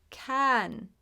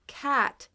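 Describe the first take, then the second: First: Can with the A pushed into the nose; can, the vowel drifting toward eh; nasal A. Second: Cat with a plain short A; a clear short a in cat, no nasal. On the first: Teacher shows the nasal vowel after cat, nasal A. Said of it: "it goes more into the nose". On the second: Teacher shows the wrong vowel first, plain short A. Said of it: "So it's not". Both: Shown as a demonstration.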